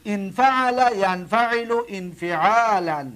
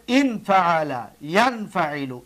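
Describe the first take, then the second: First: ان فعل ینفعل انفعالا read slowly, each form separated; slow recitation. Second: Said in the usual way. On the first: Shown as a demonstration. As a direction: drill the paradigm slowly for students. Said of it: "دقت بتید". (شمرده و آهسته) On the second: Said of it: "ببینید".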